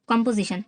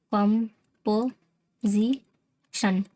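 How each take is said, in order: First: Said in the usual way. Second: "composition" very slowly in four separate beats; "कम", "पो", "जी", "शन", pausing after each; syllable by syllable. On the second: Shown as a demonstration. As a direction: sound out "composition" for learners. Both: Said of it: "कैसे अलग करेंगे".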